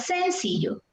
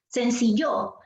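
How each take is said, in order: First: The stress is on the first syllable. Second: The stress is on the last syllable. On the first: "¿qué pasa si el acento fuera en la sílaba sen? Yo diría" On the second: "¿Qué pasa si el acento estuviera en la sílaba yo?"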